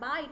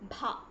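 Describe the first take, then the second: First: The b sound is plain, without breath. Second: The b sound is breathy, with a puff. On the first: The speaker calls it wrong. "It is not Ba" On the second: The speaker calls it right. "it is Bha. The Bha sound should come from your nabhi"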